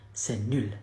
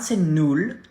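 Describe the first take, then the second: First: C'est nul with nul as a rounded French u and a soft falling end; correct pronunciation. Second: C'est nul with nul said like English null and a rising end; the learner's mistake on c'est nul; mock wrong French; wrong pronunciation. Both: Shown as a demonstration.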